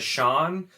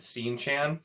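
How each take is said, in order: First: The first syllable sounds like 'shawn'. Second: The first syllable sounds like 'seen'. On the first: This is the author's intended pronunciation. "actually wants you pronounced S E A N as Sean" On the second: This is how the speaker habitually says it. "I've always just said Scene Chan"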